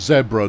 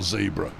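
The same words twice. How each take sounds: First: The first vowel is short, as in 'bed'. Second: The first vowel is long, as in 'bee'. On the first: The speaker calls it right. "And it's zebra" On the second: The speaker calls it wrong. "not zebra. Because otherwise you get you get confused with Zeebrugge"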